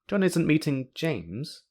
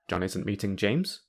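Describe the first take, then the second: First: It sounds like it is hinting at more. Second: It sounds like a surprised question. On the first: The speaker knows something else is happening instead. "the speaker knows that John isn't meeting James, and knows that John is" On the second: The speaker doubts news they were just told. "the speaker is asking a question"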